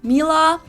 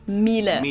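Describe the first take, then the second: First: It is said with an English accent. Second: It is said with a German accent.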